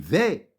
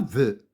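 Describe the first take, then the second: First: The vowel is an open e sound. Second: The vowel is a short neutral schwa. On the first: The speaker calls it right. "lorsqu'il y a deux consonnes, je lis E" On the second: The speaker calls it wrong. "Je dis pas ve"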